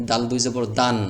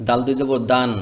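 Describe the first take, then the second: No difference in how they are said.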